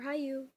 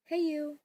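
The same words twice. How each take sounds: First: "Hayu" drawn out as high-you; pronounced high-you. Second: "Heiyu" drawn out as hey-you; pronounced hey-you. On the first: Explaining the name's meaning, "Hayu" pronounced high-you. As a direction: say "Hayu" slowly, first syllable like "high". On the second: Explaining the name's meaning, "Heiyu" pronounced hey-you. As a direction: say "Heiyu" slowly, first syllable like "hey". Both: Shown as a demonstration. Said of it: "however you wanna pronounce it".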